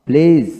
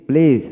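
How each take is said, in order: No difference in how they are said.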